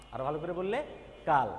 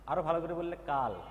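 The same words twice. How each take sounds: The two takes are said the same way.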